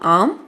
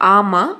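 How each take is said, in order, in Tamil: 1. எழுத்துகள் இணைந்து ஒலிக்கப்படும், கடைசி எழுத்து குறைக்கப்படும். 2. ஒவ்வொரு எழுத்தும் தனித்தனியாக முழு உயிரொலியுடன் ஒலிக்கப்படும்.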